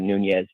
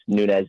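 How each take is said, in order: First: The name is pronounced the Spanish way. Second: The name is pronounced the Portuguese way. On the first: The speaker calls it wrong. "and not Spanish" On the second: The speaker calls it right. "because it's Portuguese"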